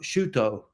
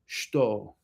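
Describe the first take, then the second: First: The u vowel after sh is clearly voiced. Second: The u vowel after sh is silent. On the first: The speaker calls it wrong. "So it's not shuto" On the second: The speaker calls it right. "the U in shito is often silent in Japanese"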